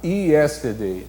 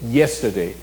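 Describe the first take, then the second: First: It begins with an ee vowel sound. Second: It begins with a consonant y glide. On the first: This is how a Brazilian speaker tends to say it. The speaker calls it wrong. "o brasileiro tem a tendência a falar yesterday, né? Com o, o som de I" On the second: This is how the word is really said. The speaker calls it right. "Na verdade, não é nem yesterday, nem yesterday, é yesterday. E o Y é uma consoante"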